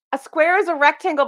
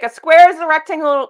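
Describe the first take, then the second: First: "is" stressed, higher pitch. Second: "square" punched and louder; stress on square. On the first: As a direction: hit "is" to insist it's true. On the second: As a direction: lean on "square", let the rest fall. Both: Shown as a demonstration.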